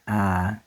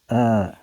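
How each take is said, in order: First: The vowel is an open 'ah' sound. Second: The vowel is a short, central 'uh' sound. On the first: The speaker calls it wrong. "not ah" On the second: The speaker calls it right. "pronounced like the oo and but"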